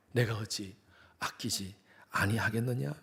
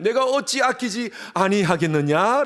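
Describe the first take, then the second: First: Slow, softer, lower question; God asking us again, soft and slow; God's question softly. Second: Slow, ringing divine question, higher and louder; God asking his people, slow and higher; God's question. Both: Acted.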